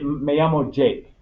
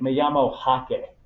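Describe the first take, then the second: First: The name keeps its English pronunciation. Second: The name is pronounced with Spanish sounds. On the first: "you'd say like" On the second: "You probably wouldn't be like"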